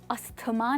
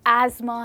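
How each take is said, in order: First: The middle sounds like 'sth'. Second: The middle sounds like 'z'. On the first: The speaker calls it wrong. "अस्थमा नहीं" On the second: The speaker calls it right. "But एज़मा है"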